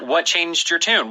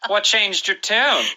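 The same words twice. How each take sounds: First: It is said in a neutral tone. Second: It is said in a smug, told-you-so tone.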